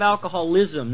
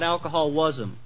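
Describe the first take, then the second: First: The stress falls on the ending 'ism'. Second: The stress falls on the 'alcohol' part. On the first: The problem is the illness itself. The speaker calls it right. "Everybody circle that ism part" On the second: The problem is the alcohol. The speaker calls it wrong. "not alcoholism"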